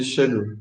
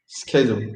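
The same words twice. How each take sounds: First: "schedule" starting with a soft sh sound; "schedule" with sh at the front; British pronunciation. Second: "schedule" starting with a hard sk sound; "schedule" with sk at the front; American pronunciation. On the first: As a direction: say "schedule" as SHED-ool, the UK way. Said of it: "In U K they say". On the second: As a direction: say "schedule" as SKED-ool, the US way. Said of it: "in U S they say". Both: Shown as a demonstration.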